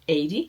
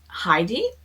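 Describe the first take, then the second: First: The name starts with no H sound. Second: The name starts with an audible H sound. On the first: "in Spanish would be pronounced eighty" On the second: "that would be actually English pronunciation"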